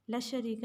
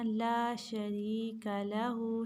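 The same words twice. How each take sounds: First: ला शरीक said quickly, the ला clipped with no madd; wrong short reading. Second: ला शरीक लहू slowly, the ला stretched one alif; correct tajweed reading. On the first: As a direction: rush ला शरीक without lengthening. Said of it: "नहीं पढ़ना". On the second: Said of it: "एक अलिफ के बराबर लंबा करेंगे". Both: Shown as a demonstration.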